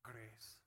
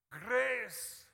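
First: "Grace" said low and soft, almost to himself; quiet grace. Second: "Grace!" shouted high and loud, falling. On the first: Preacher murmuring the word to the congregation, low and soft. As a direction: drop the voice on "Grace", hushed and low. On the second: Preacher proclaiming the word to the congregation, a loud high shout. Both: Shown as a demonstration.

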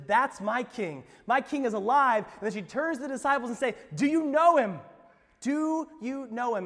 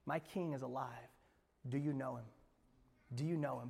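First: Full-force preaching. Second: Much softer, lower, intimate question; quiet reprise. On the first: Pastor proclaiming Mary's recognition, loud and fervent. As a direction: proclaim it to the rafters. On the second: Pastor asking the congregation personally, soft and intimate. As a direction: ask it close and gentle. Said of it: "same question asked quietly". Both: Acted.

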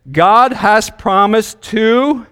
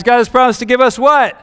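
First: Slow, drawn-out prompt; slow fill-in-the-blank read. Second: Higher, louder, pushing for the answer; emphatic prompting question. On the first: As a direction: read it slowly and leave the blank open. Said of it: "and then there's a blank". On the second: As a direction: prod the kids for the answer. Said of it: "this is an easy test, guys". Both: Shown as a demonstration.

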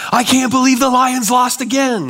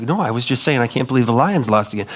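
First: High mock shout about the Lions; all-caps yelling. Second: Said in the usual way. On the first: Shown as a demonstration. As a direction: read it like a text in all caps. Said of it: "you're yelling all the time". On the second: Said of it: "And you're like".

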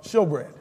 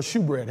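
First: "showbread" with a long O, as in show; pronounced showbread. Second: "shewbread" with an OO, as in shoe; pronounced shewbread. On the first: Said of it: "Hebrew pronunciation is showbread". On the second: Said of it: "however you wanna say it". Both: Shown as a demonstration.

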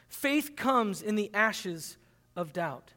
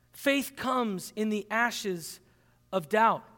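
First: Slow, weighty delivery of faith; slow emphasis. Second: Even slower, pausing before of doubt; slower repeat. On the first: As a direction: lean on each word slowly. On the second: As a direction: repeat it slowly with a pause. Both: Shown as a demonstration.

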